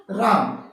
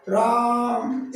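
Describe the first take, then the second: First: Said in the usual way. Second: राम with the आ stretched very long; prolonged pluta vowel. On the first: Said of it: "जब राम शब्द में बीच में हम ये लगा देंगे". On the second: Shown as a demonstration. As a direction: draw out राम as रा-आ-आ-म, very slowly. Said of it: "इस तरीके से लंबे स्वर में इसको बोला जाता है". (राम को बहुत लंबा खींचकर बोलें)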